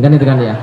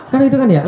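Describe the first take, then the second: First: Said in the usual way. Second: Pitched up high with a laugh; high teasing laugh on kan itu kan ya; playful laughing repeat. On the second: Shown as a demonstration. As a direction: toss the catchphrase back up high, laughing. Repeats catchphrase, higher, laughing.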